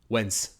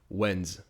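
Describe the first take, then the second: First: The word ends with a hissing S sound. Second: The word ends with a buzzing Z sound. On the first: The speaker calls it wrong. "If you say it with an S, ... not quite natural sound" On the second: The speaker calls it right. "it'll actually make a Z noise, not an S noise"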